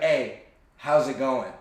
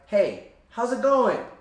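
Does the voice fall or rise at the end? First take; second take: fall; rise. First: The pitch stays low and falls at the end. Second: The pitch rises at the end. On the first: The speaker sounds grounded and confident. The speaker calls it right. "Down talk, you kind of have that low pitched voice the entire time" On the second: The speaker sounds unsure and seeks approval. The speaker calls it wrong. "Up talk is like, ... Like the pitch of your voice rises at the end"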